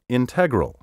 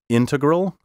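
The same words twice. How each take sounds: First: The stress is shifted to another syllable. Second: The stress is on the traditional syllable. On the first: The speaker calls it wrong. "so many speakers now misplace the accent" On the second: The speaker calls it right. "my first pronunciation of each word was the proper one"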